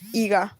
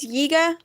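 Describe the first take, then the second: First: The name begins with a plain vowel. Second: The name begins with a y sound. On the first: The speaker calls it right. "I'm saying Iga" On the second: The speaker calls it wrong. "You're probably hearing it as Yiga"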